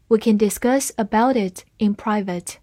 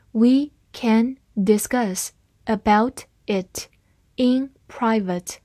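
First: Said in the usual way. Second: Slow, word by word; slow reading. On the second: Shown as a demonstration. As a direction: read it slowly and clearly for learners. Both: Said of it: "好，慢慢来读。".

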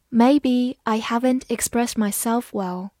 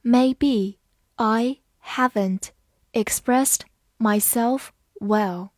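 First: Said in the usual way. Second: Slow, careful read-aloud x0.5; each word spaced out, slowly. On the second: Shown as a demonstration. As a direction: read it slowly so learners can follow. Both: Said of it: "好，慢慢来读".

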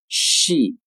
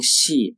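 First: "she" with pouted sh gliding into spread-lip ee; "she" drawn out, English sh then ee; correct English sh. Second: "she" mispronounced like Mandarin "xi"; "she" with a palatal Chinese x; wrong xi sound. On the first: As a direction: say "she" with rounded lips on sh, then a long ee. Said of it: "而是". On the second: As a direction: say "she" with lips spread from the start, as xi. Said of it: "其实不能读成". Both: Shown as a demonstration.

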